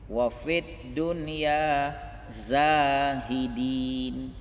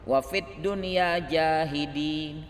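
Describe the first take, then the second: First: The last word begins with a z sound. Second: The last word begins with a j sound. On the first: Make us people who renounce the world. The speaker calls it right. "zai, alif, ha, dal, ya, nun" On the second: Make us people who deny the truth. The speaker calls it wrong. "dibaca sebagian orang kurang fasih"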